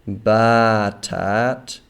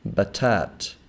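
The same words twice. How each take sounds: First: The first vowel is long. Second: The first vowel is short. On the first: The speaker calls it wrong. "we do not pronounce this batat" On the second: The speaker calls it right. "but rather batat"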